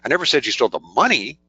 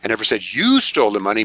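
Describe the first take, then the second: First: The word "money" is stressed. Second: The word "you" is stressed. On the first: Something other than money might have been stolen. "Implies maybe you stole something else" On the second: Someone else might have stolen it. "Maybe your partner did"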